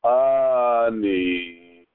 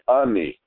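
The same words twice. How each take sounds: First: The first vowel is held long. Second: The first vowel is cut short. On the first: The speaker calls it wrong. "you wouldn't say ani" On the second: The speaker calls it right. "You shorten up the sound of the aleph"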